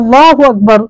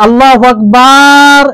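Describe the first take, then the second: First: The vowels are kept at normal length. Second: A vowel is stretched out long.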